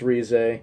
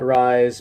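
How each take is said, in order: First: The name does not sound like English rise. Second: The name sounds like the English word rise. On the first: The speaker calls it right. "but I believe it's Rize" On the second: The speaker calls it wrong. "I used to call it Rise, but I think someone corrected me on that"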